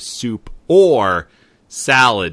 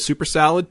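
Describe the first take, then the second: First: The words are said separately and clearly. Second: The words are run together into one word. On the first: It offers a choice of soup or salad. The speaker calls it right. "would you like the soup or salad, not the super salad" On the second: It sounds like one big salad. The speaker calls it wrong. "He mashed it together like we usually do here in New York"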